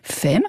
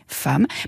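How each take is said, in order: First: The vowel sounds like 'e'. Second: The vowel sounds like 'a'. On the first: This is the older pronunciation. "progressivement s'est prononcé femme" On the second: This is the later, current pronunciation. "puis femme. ... le premier E, même s'il se prononce A"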